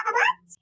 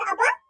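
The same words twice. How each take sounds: First: High, hopeful squeal of a question; excited high-pitched "قبضت؟"; eager payday question. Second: Said in the usual way. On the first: Acted. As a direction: pitch it way up with greedy hope. Daughter asks dad about payday.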